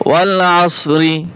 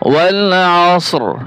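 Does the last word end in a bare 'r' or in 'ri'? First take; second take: ri; bare r. First: The last word ends with an 'ri' sound. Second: The last word ends with a bare 'r' sound. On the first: The reading continues without stopping. "রা জের রি" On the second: The reader stops at the end of the verse. "ওয়াকফ করলে রি হবে না, শুধু র উচ্চারণ হবে।"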